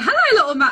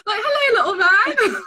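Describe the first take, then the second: First: Loud, higher greeting with a hint of Liverpool accent; a quick, hesitant Scouse try before backing out; half-hearted Liverpool accent. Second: Much higher, louder Scouse greeting, breaking into laughter; hammed-up Liverpool accent. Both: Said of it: "not even gonna do the Liverpool accent".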